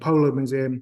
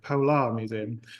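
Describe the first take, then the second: First: It is said fast, with the final r dropped. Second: It is said carefully, with the final r clear. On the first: The speaker calls it wrong. "I say that really fast. It sounds like I'm saying Polo Museum" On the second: The speaker calls it right. "I actually work for the Polar Museum"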